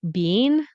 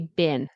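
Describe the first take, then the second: First: The vowel is long, like bean. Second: The vowel is short, like bin. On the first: "So you could say I haven't been" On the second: "but we say been. B I N"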